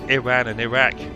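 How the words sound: Said with an English pronunciation. "the English, for example, pronounce it"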